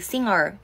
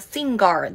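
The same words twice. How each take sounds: First: The middle has a nasal ng sound. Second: The middle has a hard g sound. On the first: The speaker calls it right. "英語だと" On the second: The speaker calls it wrong. "シンガーではなく"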